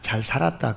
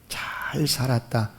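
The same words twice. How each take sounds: First: It is said in a straight, self-assured tone. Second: It is said with a curving, thankful intonation. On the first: I lived rightly by my own effort. "상당히 자기 자신의 삶에 대해서 자신감을 갖는" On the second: I lived well only by grace, and I am thankful. "억양이 조금 꼬부라지면"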